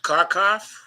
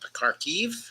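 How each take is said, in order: First: The name ends with an 'ov' sound. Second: The name ends with an 'iv' sound. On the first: This is the Russian form of the name. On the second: This is the Ukrainian form of the name.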